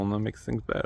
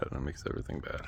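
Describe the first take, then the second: First: Said in the usual way. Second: Drops to an unvoiced whisper on "makes everything bad". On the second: Shown as a demonstration. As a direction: breathe the line out with no voice.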